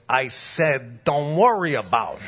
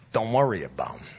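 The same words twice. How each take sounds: First: Firmer wiseguy repeat; insistent mafia tough guy. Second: Low wiseguy brush-off; mafia tough guy. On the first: Mobster overrides board approval worry, insistent wiseguy voice. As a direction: insist like a mob boss losing patience. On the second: Mobster dismisses worry over rates, low wiseguy voice. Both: Retold or imitated. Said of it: "like, The Sopranos".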